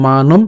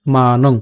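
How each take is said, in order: First: "মানম" closed on the lips with m; m ending. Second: "মানং" ending in a nasal ng, lower in pitch; anusvara ng. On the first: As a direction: say "মানম" as maa-nom, final m. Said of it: "অনুসারটা ময়ের মতো উচ্চারণ করতাম". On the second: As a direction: say "মানং" as maa-nong, lips open at the end. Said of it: "অনুসারের মতোই উচ্চারণ করছি". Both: Shown as a demonstration.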